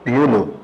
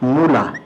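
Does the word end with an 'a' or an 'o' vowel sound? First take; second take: o; a. First: The word ends with an 'o' vowel. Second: The word ends with an 'a' vowel. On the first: "এটার উচ্চারণ আবার কেউ কেউ করে মূলো" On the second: "আমি একটা শব্দ বললাম মূলা"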